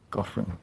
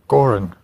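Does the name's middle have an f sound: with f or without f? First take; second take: with f; without f. First: The middle of the name has an f sound. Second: The middle of the name has no f sound. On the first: "pronouncing the GH in the middle as Goff" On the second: "Colonel Flynn said it was Gorin"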